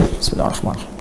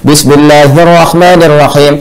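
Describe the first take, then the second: First: It is said very quietly, almost silently. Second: It is said loudly and clearly.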